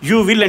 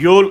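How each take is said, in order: First: Both words are said in full. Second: The two words merge into one syllable.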